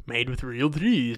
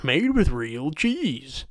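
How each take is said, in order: First: Slowed, sarcastic repeat of the label; mock slogan. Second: Slow, sarcastic reading of the label; mock slogan. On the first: Sarcastically repeating the macaroni box slogan. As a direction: say it with scorn. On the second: Sarcastically reading the macaroni box slogan aloud. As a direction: drag it out like a dumb ad line.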